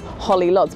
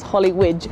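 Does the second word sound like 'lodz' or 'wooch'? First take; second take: lodz; wooch. First: The second word sounds like English 'lodz'. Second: The second word sounds like 'wooch'. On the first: The speaker calls it wrong. "It looks like Holly Lodz" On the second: The speaker calls it right. "if you pronounce it correctly as Holly Łódź"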